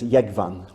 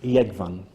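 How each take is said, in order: The two takes are said the same way.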